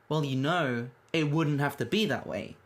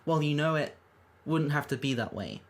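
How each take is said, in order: First: It flows with no pause after "it". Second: There is an odd pause after "it".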